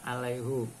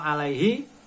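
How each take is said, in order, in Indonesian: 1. Kata ini diakhiri dengan bunyi hu. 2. Kata ini diakhiri dengan bunyi hi. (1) "harus dibaca dummah" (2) "banyak yang kadang-kala terlanjur"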